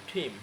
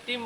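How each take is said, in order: First: টিম with a breathy puff on T, "thim"; aspirated T. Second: টিম with a plain, unaspirated T. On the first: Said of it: "কি বলতে হবে?". (টিম, ঠ-এর মতো ঠিম) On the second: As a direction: say টিম with no puff after T. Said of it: "টিমকে টিম বলা যাবে না". (টিম, মহাপ্রাণহীন ট দিয়ে) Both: Shown as a demonstration.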